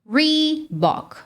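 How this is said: It is said with an English pronunciation. The speaker calls it right. "o natural no inglês é Reebok"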